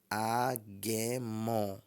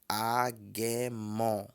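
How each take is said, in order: Both takes have the same delivery.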